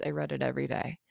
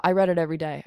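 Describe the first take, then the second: First: Softer and lower, almost to herself; soft, lower repeat to herself; quiet repeat. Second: Said in the usual way. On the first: Real, not acted. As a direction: let the repeat sink into a soft, lower murmur. Repeats the line, then softer.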